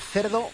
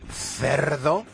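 First: The word is said plainly, without extra force. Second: The word is said with heavy, drawn-out emphasis. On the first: "porque decir cerdo, pues bien" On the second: "se te llena la boca"

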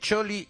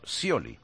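First: The name starts with a ch sound. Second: The name starts with an s sound. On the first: The speaker calls it right. "Es Choli" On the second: The speaker calls it wrong. "Hemos dicho Scioli"

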